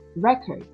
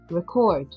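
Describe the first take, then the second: First: The stress is on the first syllable. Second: The stress is on the last syllable. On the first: "when the stress is on the first part of this word, it becomes noun" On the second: "when you transfer the stress at the last part of the word"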